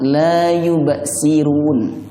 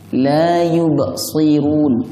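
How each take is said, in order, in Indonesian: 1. Bunyi s diucapkan sebagai biasa sin. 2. Bunyi s diucapkan sebagai emfatik sad. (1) "Kalau dibaca ... nah itu bisa merubah makna" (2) "Hati-hati shotnya"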